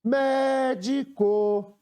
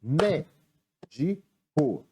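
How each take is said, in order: First: "médico" called in one drawn-out chant, MÉ held long; "médico" slow and higher, as if hailing someone; calling out the word. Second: "Médico" broken into three slow beats, Mé-di-co; "Médico" slowly, a gap after every syllable. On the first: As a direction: stretch the "mé" of "médico" on a high held note. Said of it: "chamando a palavra". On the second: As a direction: say "Médico" as if clapping each syllable. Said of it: "A primeira é batendo palmas". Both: Shown as a demonstration.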